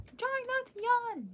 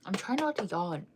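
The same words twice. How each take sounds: First: Words stretched much higher into a real yawn; yawning through words. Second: Said in the usual way. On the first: Real, not acted. Streamer telling chat she's fighting a yawn, yawning through it. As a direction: let the yawn take over the words.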